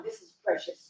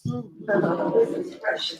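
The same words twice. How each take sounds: First: Said in the usual way. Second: Very slow, heartfelt repeat; slow emphatic. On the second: Real, not acted. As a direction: draw each word out slowly.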